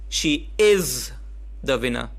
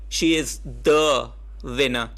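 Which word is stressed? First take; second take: is; the. First: The word is carries the emphasis. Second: The word the carries the emphasis.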